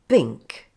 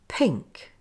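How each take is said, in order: First: The first sound is weak and voiced, like b. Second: The first sound is a strong, breathy p. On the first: The speaker calls it wrong. "If I say it with less breath, it sounds like this" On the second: The speaker calls it right. "Now listen when I say it with more breath"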